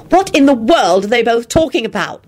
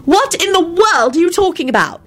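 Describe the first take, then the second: First: Higher, urgent hissed question; bewildered aside in raised pitch. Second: High-pitched exasperated wail; upset, high pleading question. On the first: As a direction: ask it in an exasperated hiss. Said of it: "Elizabeth hissed". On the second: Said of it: "Elizabeth wailed". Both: Acted.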